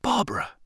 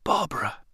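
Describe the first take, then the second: First: Much higher, breathless cry; the name bursts out in disbelief; overwhelmed gasp, high up. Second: Breathless cry, pitched higher; astonished gasp of recognition. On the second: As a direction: catch your breath on the name. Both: A narrator's reading. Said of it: "I gasped".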